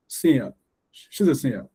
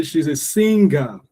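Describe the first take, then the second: First: "singer" stressed on SING, ending light and quick; "singer" with no weight on the last syllable; correct reduced ending. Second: "singer" as SING-GAH, a heavy final syllable; both syllables emphasized. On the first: Teacher showing learners correct stress, "singer" with a light ending. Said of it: "I don't have to emphasize the ga". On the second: Teacher showing what not to say, "singer" with the ga emphasized. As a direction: give "singer" two full beats. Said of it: "I don't have to say". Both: Shown as a demonstration.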